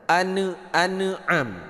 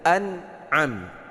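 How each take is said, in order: First: The n sound is bounced with a small break. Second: The n sound flows straight into the next vowel. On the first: The speaker calls it wrong. "orang membaca an an'am ... Jangan dipantulkan bunyi huruf nun" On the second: The speaker calls it right. "dibaca an'am. Cara bacanya itu langsung"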